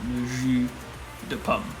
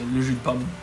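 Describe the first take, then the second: First: Each word is said fully and separately. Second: The words are run together, skipping sounds.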